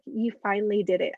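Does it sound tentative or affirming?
tentative. It is said tentatively, without conviction.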